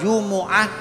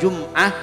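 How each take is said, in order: First: The m is followed by a u vowel. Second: The m has no vowel after it. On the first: "dibaca Dhammah"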